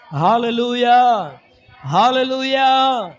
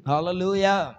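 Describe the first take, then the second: First: Loud, drawn-out hallelujah; shouted hallelujah. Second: Said in the usual way. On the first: Acted. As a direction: call it out to the church.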